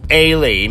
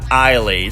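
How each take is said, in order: First: The name begins with an 'ay' sound. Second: The name begins with an 'eye' sound. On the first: The speaker calls it right. "it's Ailey" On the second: The speaker calls it wrong. "not Eiley"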